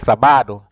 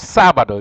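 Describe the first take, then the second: First: The stress is on the second syllable. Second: The stress is on the first syllable. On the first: The speaker calls it wrong. "You don't say sábado" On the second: The speaker calls it right. "So you have to say, hoy es sábado"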